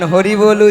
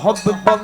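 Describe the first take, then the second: First: The phrase is pronounced clearly with normal sounds. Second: The phrase is mumbled with blurred, doubled consonants. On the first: "তখন হরি বল উচ্চারণ হয় না।" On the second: "কি উচ্চারণ হয়? না হব্বি বদ্দ"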